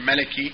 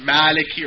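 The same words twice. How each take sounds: First: The first vowel is kept short. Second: The first vowel is held long. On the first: It means king. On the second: It means owner.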